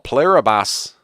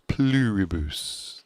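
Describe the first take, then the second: First: It is said in a New Zealand accent. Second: It is said in a standard pronunciation. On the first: "That's my Kiwi accent" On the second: "That's how you're supposed to pronounce it"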